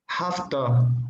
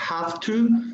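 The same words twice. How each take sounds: First: The words are shortened and run together. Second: Both words are said fully and separately.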